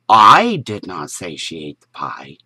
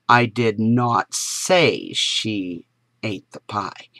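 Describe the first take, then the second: First: The stress is on the word I. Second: The stress is on the word say.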